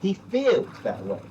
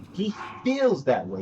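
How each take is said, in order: First: Feels said slowly and weighted; slow, pointed stress on feels. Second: Feels repeated slowly, a little lighter; second slow take stressing feels. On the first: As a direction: drag out feels to mock him. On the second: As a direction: say feels again slow and sure. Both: Shown as a demonstration. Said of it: "emphasis on the word feels".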